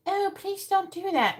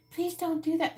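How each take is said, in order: First: Meek mock plea. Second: High, sweet pleading voice; meek mock plea. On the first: Mocking a meek person asking nicely, high timid plea. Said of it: "And if you're just like". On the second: Mocking a parent asking kids sweetly, high meek plea. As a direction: ask like a pushover. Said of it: "But if you say".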